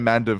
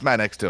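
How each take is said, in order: First: The X sound in the name is left out. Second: The X sound in the name is pronounced. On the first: The speaker calls it wrong. "I thought it was a silent X" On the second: The speaker calls it right. "It's Man Extum"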